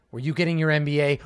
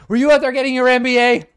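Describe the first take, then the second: First: Said in the usual way. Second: Loud, high accusation; mock outrage. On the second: A dad loudly accuses his daughter of getting an MBA, in mock outrage. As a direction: blurt it out in mock horror.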